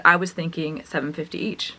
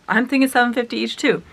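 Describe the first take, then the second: First: Said in the usual way. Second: Higher, delighted inner thought; gleeful echo. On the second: Retold or imitated. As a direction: echo the price back, secretly thrilled. Delighted echo of dad's price.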